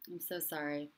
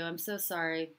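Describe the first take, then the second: First: Tender softer repeat. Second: Said in the usual way. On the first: Real, not acted. Consoling a grieving viewer.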